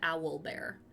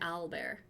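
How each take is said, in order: First: The first part sounds like 'owl'. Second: The first part sounds like 'al'. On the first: "as opposed to owl bear" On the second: "like with an A, like an A L"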